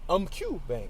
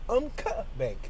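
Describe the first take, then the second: First: The final A sound is left out. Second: The U sound after Q is left out. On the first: "Or maybe the A silent" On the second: "Or maybe the U silent"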